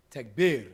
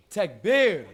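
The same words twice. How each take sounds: First: Loud call for takbir; call to the crowd. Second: Much louder, higher-pitched shout; rousing shout. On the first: Preacher asking the youth for a takbir, loud call. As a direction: call it out loudly, falling at the end. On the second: Preacher demanding a prouder takbir from young men, full-voiced shout. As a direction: belt it out high to rally the crowd. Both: Real, not acted. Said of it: "Say it like your father".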